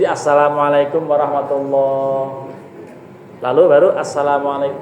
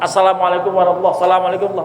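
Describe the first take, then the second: First: A clear pause separates the two greetings. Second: The two greetings run together with no pause. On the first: The head turns calmly, without haste. The speaker calls it right. "Jadi ada jedanya" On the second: The head turns too quickly, like a fox. The speaker calls it wrong. "Enggak ada jeda"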